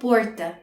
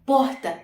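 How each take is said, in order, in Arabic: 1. الحرف اللي قبل t صوته ر. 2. الحرف اللي قبل t صوته هـ. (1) "الناس مثلا في ساو باولو بينطقوها بورتا" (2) "الكلمه دي انا بنطقها بوهتا"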